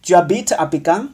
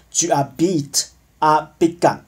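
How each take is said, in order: First: "Tu habites à Pékin" rising at the end, quicker; question intonation. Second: "Djibouti a begun" with a falling, final tune; statement intonation. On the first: Teacher models "do you live in Beijing?", as a rising question. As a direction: ask "Tu habites à Pékin" with the final word lifted. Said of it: "你住在北京吗". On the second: Teacher models "I live in Beijing", as a falling statement. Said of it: "我住在北京". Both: Shown as a demonstration.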